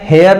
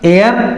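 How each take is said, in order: First: The word begins with an h sound. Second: The word begins with a vowel sound. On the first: The speaker calls it wrong. "हेयर नहीं है" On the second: The speaker calls it right. "ये है आवर, एयर"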